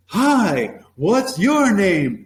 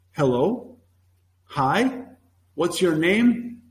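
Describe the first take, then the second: First: High, drawn-out, punchy greeting; playful ambush greeting. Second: Slow, measured mock book phrase; textbook-style reading. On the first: Acted. Class ambushing a latecomer, mock-ambush greeting. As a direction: pounce on them with a big slow hello. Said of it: "gonna get ambushed". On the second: Teacher mocking book-bound lessons, slow textbook recital. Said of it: "some teachers actually use the book".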